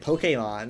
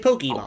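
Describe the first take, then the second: First: The word is pronounced carefully and precisely. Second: The word is pronounced loosely and casually. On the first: It is the official, correct way to say it. "They gotta say it perfectly" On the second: It is how people normally say it. "no one says it like that. They say Pokemon"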